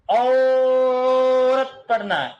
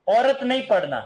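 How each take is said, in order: First: "औरत" with its first vowel stretched very long; prolonged vowel. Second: Said in the usual way. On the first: Shown as a demonstration. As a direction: draw out the "औ" in "औरत". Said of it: "तीन शब्द ऐसे लिखे हुए मिलेंगे".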